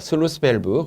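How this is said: It is said with an English-like pronunciation. The speaker calls it right. "정확한 영어 발음은 슬루스입니다"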